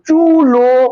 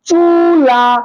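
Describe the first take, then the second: First: The word ends with an 'o' vowel sound. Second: The word ends with an 'a' vowel sound. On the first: The two vowels now match. "দুইটার ভিতরে কি আছে? মিল আছে" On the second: The two vowels do not match. "লা আকারের মতো উচ্চারিত হচ্ছে"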